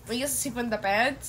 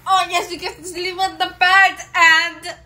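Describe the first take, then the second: First: Said in the usual way. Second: Loud, high, thrilled exclaim; excited. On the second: Acted. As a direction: cheer it like great news. Thrilled about sleeping on bed.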